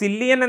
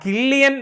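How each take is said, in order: First: The name begins with an S sound. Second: The name begins with a K sound. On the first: The speaker calls it wrong. "സില്ലിയൻ എന്നല്ല പേരിന്റെ ഉച്ചാരണം" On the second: The speaker calls it right. "ആ കില്ലിയൻ Murphy എന്നാണ്"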